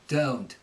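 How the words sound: The O vowel starts with an uh sound. "with the Cockney, what will happen is there'll be like an uh"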